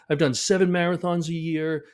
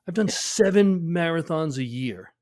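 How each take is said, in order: First: It sounds puzzled, like a complaint of disbelief. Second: It sounds exasperated, like an obvious explanation. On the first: The injury seems unfair and unexplained. "I can't believe I got hurt" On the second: The heavy training explains the injury. "let's say that with a different tone"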